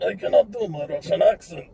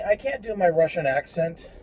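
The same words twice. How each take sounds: First: Higher-pitched, admittedly bad Russian accent. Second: Said in the usual way. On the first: Shown as a demonstration. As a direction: put on a clumsy Russian accent. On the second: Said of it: "if I'm not doing the accent".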